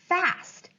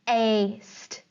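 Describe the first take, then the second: First: The vowel is a short A sound. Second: The vowel is a long A sound. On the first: The speaker calls it right. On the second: The speaker calls it wrong.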